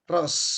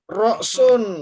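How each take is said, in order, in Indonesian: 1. Kata itu dipendekkan menjadi satu suku kata. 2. Kata itu diucapkan utuh, dua suku kata.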